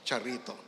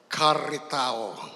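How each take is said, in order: First: The word has an English-style pronunciation. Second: The word has its original Greek pronunciation. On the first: "English pronunciation" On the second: "original Greek"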